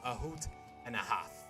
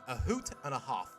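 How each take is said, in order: First: It is said in a plain American accent. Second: It is said in a British accent.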